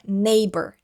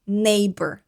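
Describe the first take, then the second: First: The gh in the middle is silent. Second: The same.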